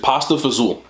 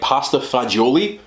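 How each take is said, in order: First: The last word is clipped to one short syllable. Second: The last word is said in full, three syllables. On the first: This is the local regional way of saying it. "what we call it here in North Jersey" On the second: This is the standard proper name. "I believe the proper name"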